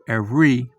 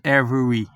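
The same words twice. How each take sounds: First: A middle syllable is swallowed. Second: Every syllable is pronounced fully. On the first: The speaker calls it right. "It's every" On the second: The speaker calls it wrong. "It's not every"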